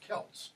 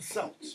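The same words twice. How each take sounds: First: The word begins with a hard K sound. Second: The word begins with a soft S sound. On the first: The speaker calls it right. "You talk about the Celts" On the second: The speaker calls it wrong. "you don't talk about the Celts"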